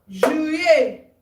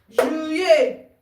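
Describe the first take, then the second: The two takes are said the same way.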